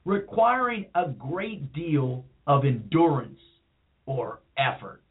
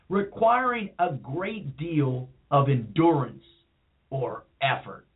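First: It is read in a cool, mellow voice. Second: The same.

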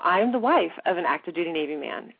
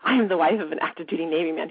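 First: It is spoken slowly and calmly. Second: It is spoken fast in one breath. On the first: "I'm saying it really calmly now" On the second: "I said all of it in one winded breath very quickly"

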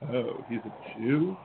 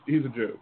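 First: It is said with a contemptuous, negative tone. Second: It is said casually, with no negative tone.

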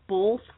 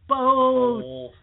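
First: The word is said with an added L sound. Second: The word is said without any L sound. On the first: The speaker calls it wrong. "they put an L in there" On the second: The speaker calls it right. "The word is B-O-T-H"

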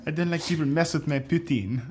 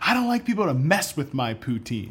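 First: It is said in a put-on French accent. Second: It is said in a normal accent.

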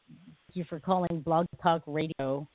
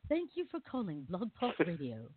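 First: It is said in his normal voice. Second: It is said in an imitated English accent.

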